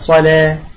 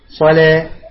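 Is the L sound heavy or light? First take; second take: light; light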